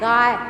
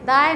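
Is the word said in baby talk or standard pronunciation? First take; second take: standard; baby talk. First: It is said in the standard adult way. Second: It is said in a childlike lisping way. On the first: The speaker calls it right. "ऐसे नहीं बेटा ऐसे" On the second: The speaker calls it wrong. "तुतला के बोलता है"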